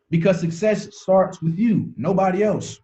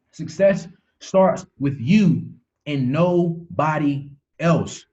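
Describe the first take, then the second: First: Said in the usual way. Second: "Success starts with you and nobody else" said slowly, leaning on "you"; slow emphatic repeat. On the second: Shown as a demonstration. Coach driving the point home to his team, slow and emphatic. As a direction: drag it out so it sinks in. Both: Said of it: "repeats the line".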